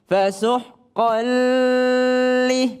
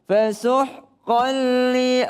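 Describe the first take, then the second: First: The link into li is drawn out. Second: The link into li is direct and quick. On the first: The speaker calls it wrong. "jangan dilamain" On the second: The speaker calls it right.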